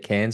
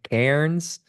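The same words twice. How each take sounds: First: It is said with no R sound. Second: It is said with an audible R sound. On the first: This is how Australians say it. "Cairns without the R" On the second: This is how Americans say it. "for our American listeners"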